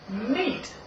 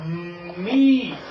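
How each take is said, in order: First: The word is said quickly as one unit. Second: The word is said slowly, sounds stretched out.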